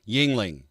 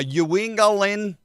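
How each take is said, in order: First: The name is said short, in two syllables. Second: The name is drawn out with extra syllables. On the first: The speaker calls it right. "like the beer" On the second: The speaker calls it wrong. "They don't know how to say Yingling"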